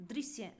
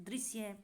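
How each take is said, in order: The two takes are said the same way.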